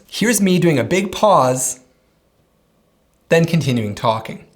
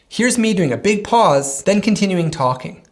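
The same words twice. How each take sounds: First: A long pause breaks the sentence in the middle. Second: The sentence runs on with no pause in it. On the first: "Here's me doing a big pause" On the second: "I'll edit out the pause"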